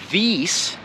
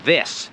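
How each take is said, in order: First: The vowel is a long ee sound. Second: The vowel is a short i sound. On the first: The speaker calls it wrong. "the letter I in English is almost never E. So we're not saying these" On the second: The speaker calls it right. "No, it's this"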